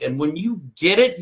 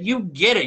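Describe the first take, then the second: First: Said in the usual way. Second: "get" lifted higher, landing the point; "you get it" pushed up in pitch with weight on "get"; emphatic repeat. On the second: Shown as a demonstration. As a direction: hit "get" hard on the repeat, voice up.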